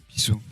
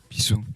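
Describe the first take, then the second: Both takes have the same delivery.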